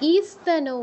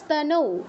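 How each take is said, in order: First: An extra 'i' vowel comes before the 'st'. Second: The word begins directly with the 'st' sound. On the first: The speaker calls it wrong. "ইস্তানৌ নয়" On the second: The speaker calls it right. "ই আগে বলবো না"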